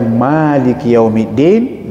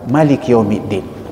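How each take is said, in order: First: The first vowel of Maliki is held long. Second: The first vowel of Maliki is kept short. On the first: He is the owner of the Day of Judgment. "dibaca panjang" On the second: He is the king and ruler of the Day of Judgment. "tidak dibaca panjang, tidak dibaca dua harakat"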